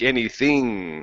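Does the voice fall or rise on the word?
rise. The pitch rises through the word. The speaker calls it wrong. "you're coming up"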